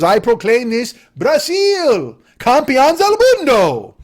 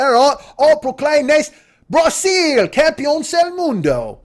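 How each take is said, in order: First: Slow, booming mock Latin accent; put-on foreign accent. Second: Slow, high mock English accent. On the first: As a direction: proclaim it grandly in a fake Latin accent. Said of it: "spoke in that accent". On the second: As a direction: proclaim it grandly as an English rock star. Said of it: "should have talked like this, like [name]".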